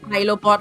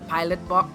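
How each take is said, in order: First: The t of pilot is dropped, sounding French. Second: The t of pilot is clearly pronounced. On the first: The speaker calls it wrong. "like he's French" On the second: The speaker calls it right. "when he's a pilot bot"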